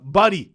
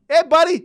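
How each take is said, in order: First: Said in the usual way. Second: High, loud mock call; calling out on court. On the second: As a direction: shout it to a teammate across the court. Calls the name on court.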